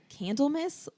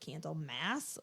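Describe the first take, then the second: First: The last syllable is reduced, like in Christmas. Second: The last syllable is full, like the word mass. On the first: "like Christmas" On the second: "like mass"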